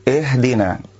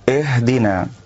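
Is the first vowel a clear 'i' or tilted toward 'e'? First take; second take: tilted e; tilted e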